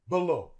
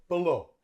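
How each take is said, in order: Both takes have the same delivery.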